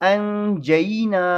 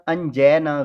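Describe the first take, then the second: First: The middle vowel glides from a to i. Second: The middle vowel is a flat e sound. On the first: The speaker calls it right. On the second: The speaker calls it wrong.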